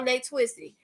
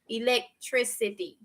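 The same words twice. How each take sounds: First: The word is said quickly in everyday speech. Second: The word is said slowly and carefully. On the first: The speaker calls it wrong. "I can't say it properly in a fast mode, like if I'm regular talking" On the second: The speaker calls it right. "Let me slow it down"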